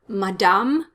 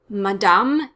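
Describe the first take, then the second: Both takes have the same delivery.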